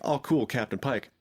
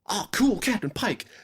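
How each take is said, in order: First: It sounds mildly interested and casual. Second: It sounds genuinely thrilled and excited.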